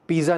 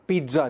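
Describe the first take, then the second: First: पिज़्ज़ा with a plain z, "pee-za"; wrong pronunciation. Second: पिज़्ज़ा with "ts" in the middle, "peet-za"; t-z sound. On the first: Teacher showing learners the mistake, पिज़्ज़ा as "pee-za". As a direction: say पिज़्ज़ा without any t sound. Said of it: "ये पिज़्ज़ा नहीं है". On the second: Teacher correcting learners, पिज़्ज़ा with a t-z sound. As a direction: say पिज़्ज़ा with a t before the z. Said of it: "टी ज़ेड का sound है इसमें". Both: Shown as a demonstration.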